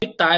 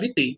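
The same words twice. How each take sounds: First: The ending is said as two vowels, 'a-e'. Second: The ending is said as a single 'e' vowel. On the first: This is how people commonly say it. The speaker calls it wrong. "Que a gente fala vitae lá no currículo" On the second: This follows the reconstructed Latin pronunciation. The speaker calls it right. "mas a pronúncia é vitae"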